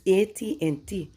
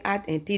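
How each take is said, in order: First: "A T and T" spelt out as ay-tee-and-tee; correct pronunciation. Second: "at and T" with at said as one short word; wrong pronunciation. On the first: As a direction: give A and T their letter names in A T and T. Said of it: "It's A T and T". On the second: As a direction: read the letters in at and T as the word "at". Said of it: "they will laugh at you". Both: Retold or imitated.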